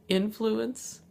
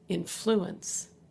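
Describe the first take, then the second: First: The stress is on the first syllable. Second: The stress is on the second syllable. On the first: It is used as a noun. "is a noun" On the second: It is used as a verb. "is a verb"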